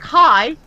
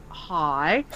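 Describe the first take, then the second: First: Higher, louder bright "Hi."; friendly greeting. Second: Lower, softer deadpan "Hi."; wary reply. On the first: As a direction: greet like the eager stranger. High-level player greets. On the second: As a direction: answer the stranger low and unimpressed. Narrator answers flatly. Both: Retold or imitated.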